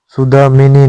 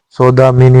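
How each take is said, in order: First: सुदामिनी starting with a short सु; wrong form. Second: सौदामिनी starting with an open सौ; correct form. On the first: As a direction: say सुदामिनी, su-daa-mi-ni. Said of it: "सुदामिनी नहीं होता". (सुदामिनी, गलत रूप, छोटा उ) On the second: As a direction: say सौदामिनी, sau-daa-mi-ni. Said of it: "सौदामिनी होता है". (सौदामिनी, सही रूप, औ की मात्रा) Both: Shown as a demonstration.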